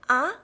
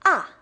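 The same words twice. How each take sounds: First: The pitch rises from low to high. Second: The pitch falls sharply from high to low. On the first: It carries a feeling of surprise. "the second tone, it rises" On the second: It sounds sure and certain. "It goes from up to down"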